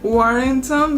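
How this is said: It is said with English sounds. "because it's like such an English word. You have to do like the W, the R's"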